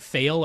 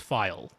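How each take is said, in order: First: The vowel sounds like the one in 'day'. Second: The vowel sounds like the one in 'my'. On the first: The speaker calls it wrong. "people saying fail" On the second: The speaker calls it right. "no, it is, it's file"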